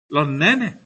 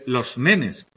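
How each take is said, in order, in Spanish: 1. La s se cambia por una h aspirada. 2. La s se pronuncia como una s clara. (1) "esa S no va a sonar nunca" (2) "En vez"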